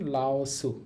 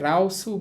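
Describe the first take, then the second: First: The word begins with an L sound. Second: The word begins with an R sound. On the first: "রিউলকে লয়ের মতো উচ্চারণ করে" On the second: "এই রিউলকে র দিয়ে বলেন"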